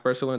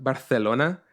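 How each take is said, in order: First: Said in the usual way. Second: "Barcelona" with a Castilian th for the c; Castilian Spanish pronunciation. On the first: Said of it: "I don't like the way he says". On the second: Shown as a demonstration. Listener quotes the audiobook narrator's Spain pronunciation, "Barcelona" lisped as Bar-the-lona. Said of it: "it's pronounced Barcelona".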